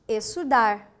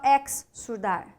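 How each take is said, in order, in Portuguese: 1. O x e o s formam um só som de s. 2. O x e o s são pronunciados separadamente.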